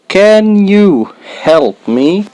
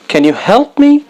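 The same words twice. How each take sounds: First: "Can you help me?" drawn out slowly; slow careful model. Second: "Can you help me?" much higher, like a real plea; pleading natural ask. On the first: Teacher to beginners, slow clear model. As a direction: model each word slowly for learners. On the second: Teacher acting a learner asking for help, much higher. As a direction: ask for help with a lifted, urgent voice. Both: Shown as a demonstration. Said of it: "slow then natural take".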